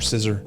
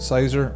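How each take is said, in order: First: The name is said like the word 'scissor'. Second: The name is said to sound like 'Scyther'. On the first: The name echoes the word scissors. "Scissor makes sense" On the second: The name echoes the creature it evolves from. "I'm going with the Scyther motif"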